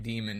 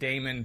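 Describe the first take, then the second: First: The first syllable sounds like 'dee'. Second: The first syllable sounds like 'day'. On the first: It follows how the show says it. "be it demon" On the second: It follows the spelling of the computer term. "be it Damon"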